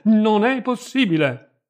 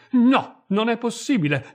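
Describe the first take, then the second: First: Put-on "non è possibile" ripetuto più forte e lento, accento su "è"; insiste, allungando la disperazione; lamento gridato. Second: "non è possibile" gridato più acuto e forte; gemito disperato. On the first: ("non è possibile" gridato lentamente, con "è" marcato) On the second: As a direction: supplica disperata, quasi un grido. ("non è possibile" detto in un lamento acuto) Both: A narrator's reading. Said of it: "gemette lei".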